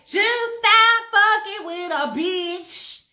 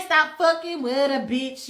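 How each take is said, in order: First: Slow sung line in a put-on voice. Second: Said in the usual way. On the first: Shown as a demonstration. Coaching [name] on the lyric, sung slowly. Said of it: "it sounded a little better if you say". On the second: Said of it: "Say stop fucking with a bitch".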